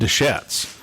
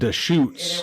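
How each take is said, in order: First: The last syllable sounds like 'shets'. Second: The last syllable sounds like 'shoots'. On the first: The speaker calls it wrong. "I always said Desch- Deschettes" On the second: The speaker calls it right. "it's actually pronounced Deschutes"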